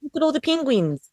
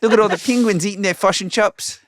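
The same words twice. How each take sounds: First: Quick, clipped New Zealand accent, pitched up. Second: Clipped, higher New Zealand accent. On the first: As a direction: rattle it off like a Kiwi. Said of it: "do a New Zealand accent for me". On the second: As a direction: mimic the Kiwi, short and bright. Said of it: "it's all a little bit clipped and shorter". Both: Shown as a demonstration.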